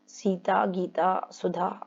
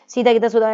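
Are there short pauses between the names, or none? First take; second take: short pauses; none. First: Short light pauses come between the names. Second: The names run together without pauses between them. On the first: The speaker calls it right. "हल्का हल्का सा रुकना पड़ रहा है" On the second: The speaker calls it wrong. "ऐसा नहीं बोलोगे ना"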